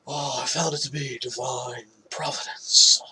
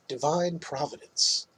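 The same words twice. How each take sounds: First: Whispered, breathy mock actor voice with a rising end; horrible Nick Cage impression. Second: Said in the usual way. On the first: Host mocking the actor on the podcast, whispered bad impression. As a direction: hush it into a bad celebrity impression, stretching found. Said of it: "That's a horrible Nick Cage impression". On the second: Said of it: "Or as he would probably say".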